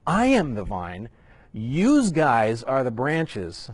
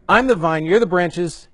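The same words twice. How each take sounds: First: Put-on slow, drawn-out Jersey accent, yous guys; a joking New Jersey guy reading Jesus. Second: Said in the usual way. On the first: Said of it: "my best Jersey imitation".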